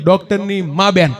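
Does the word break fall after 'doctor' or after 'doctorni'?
after doctorni. The break comes right after 'doctorni'. The doctor's mother. The speaker calls it wrong. "પણ હું બોલી ગયો"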